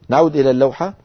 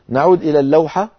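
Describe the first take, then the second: No difference in how they are said.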